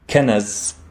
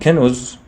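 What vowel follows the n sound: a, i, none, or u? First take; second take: a; u. First: An a vowel follows the n sound. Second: A u vowel follows the n sound. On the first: "the noon in the middle does not have a fatha" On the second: "it does not have a dhamma"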